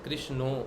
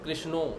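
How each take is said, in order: First: The word is said in a Bengali accent. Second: The word is said in a Bengali accent.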